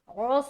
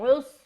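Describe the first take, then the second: First: The vowel is an open 'aw' sound. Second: The vowel is a short 'u' sound. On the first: The speaker calls it wrong. "औस नहीं बोलना" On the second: The speaker calls it right. "बल्कि उस"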